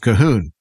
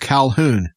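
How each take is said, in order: First: The name is said the Gaelic way. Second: The name is said the English way. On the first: The speaker calls it right. "that's how they pronounced it, was Cahoon" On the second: The speaker calls it wrong. "I told people my name was Calhoun"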